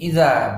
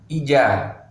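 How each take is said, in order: First: The middle consonant is a soft dh sound. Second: The middle consonant is a j sound. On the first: The speaker calls it right. "Ingat ini idza" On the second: The speaker calls it wrong. "bukan ija"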